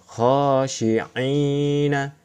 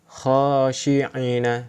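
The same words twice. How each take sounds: First: The vowel after 'ain' is held long. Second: The vowel after 'ain' is kept short. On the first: "Ketika ada ya sukun, pasti dibaca panjang" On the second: "Ini tidak dibaca panjang"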